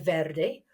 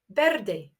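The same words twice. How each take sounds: First: The word begins with a V sound. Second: The word begins with a B sound. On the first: "you may choose to say verde" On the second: "Some people actually pronounce their V's as B's"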